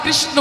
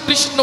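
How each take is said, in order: The two takes are said the same way.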